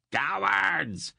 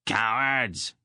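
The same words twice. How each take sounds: First: Higher furious shout. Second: Loud furious yell; angry shout. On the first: Brill screams after his running men, higher furious shout. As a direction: yell it again, much higher and strained. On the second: Brill shouts at his fleeing hirelings, angry shout. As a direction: spit the word out in a rage. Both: A narrator's reading. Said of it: "he shouted at his hirelings".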